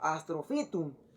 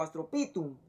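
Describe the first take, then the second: First: The ph is said as an f sound. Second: The ph is said as a p sound. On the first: The speaker calls it right. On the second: The speaker calls it wrong.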